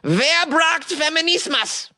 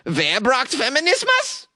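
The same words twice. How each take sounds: First: It is said with a flat statement tune. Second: It is said with a questioning tune.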